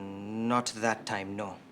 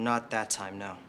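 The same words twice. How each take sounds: First: It is said with a put-on accent. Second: It is said in the speaker's own accent.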